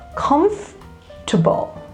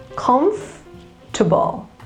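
The two takes are said the same way.

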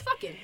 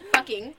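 First: The word is said casually, not as spelled. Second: The word is said fully, exactly as spelled. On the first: It fits the expected way of cussing. "What they want you to say is" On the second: It sounds too proper for cussing. "I'm going to pronounce it correctly how it's spelled"

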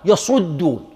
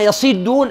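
First: The vowel after the ṣ sound is u. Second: The vowel after the ṣ sound is i. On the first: "وضمها" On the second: "بكسر الصاد"

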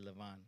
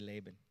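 First: The name is said with the Hebrew pronunciation. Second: The name is said with the English pronunciation. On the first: "In Hebrew, they say Lavan" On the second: "We say Laban"

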